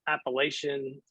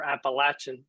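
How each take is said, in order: First: The word is said the general, widespread way. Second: The word is said the local regional way.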